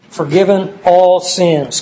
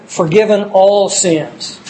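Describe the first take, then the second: First: "all" drawn out and firm, the phrase slowed; stress on all again. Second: "all" slowed and weighted, falling at the end; stress on all. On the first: Preacher repeats the list item, stressing "all" deliberately. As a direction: hit "all" and let the phrase fall slowly. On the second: Preacher to congregation, stressing "all" slowly. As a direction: lean hard on "all" and take it slowly. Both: Shown as a demonstration. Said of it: "I emphasize the word all".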